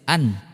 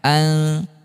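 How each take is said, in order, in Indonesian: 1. Bunyi n diucapkan dengan jelas dan penuh. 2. Bunyi n disamarkan menjadi dengungan sengau. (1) "Coba kalau kita jelas dulu" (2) "Sekarang kita samarkan"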